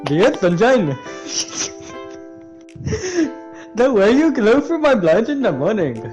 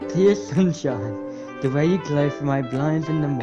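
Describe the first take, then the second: First: It is said in a stereotypical Indian accent. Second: It is said in the speaker's ordinary accent.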